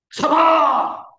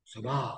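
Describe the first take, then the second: First: High loud shout of Sabar. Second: Sabar. said low and soft; hushed sabar. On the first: Preacher acting a wife at the end of her patience, shouting. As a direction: yell Sabar. with a burst. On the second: Preacher acting a wife forcing herself calm, quietly. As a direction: pull Sabar. back down to a murmur. Acted outburst of patience. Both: Acted.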